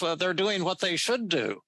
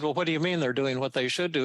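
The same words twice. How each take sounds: First: Higher, lightly put-on New York twang, with stress on "should"; a mild imitation of a New Yorker's calm reasoning; "they're doing what they should do" in a hint of a New York accent; Albert Ellis New York twang. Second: Said in the usual way. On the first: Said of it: "this is the way he talked". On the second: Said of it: "And I said".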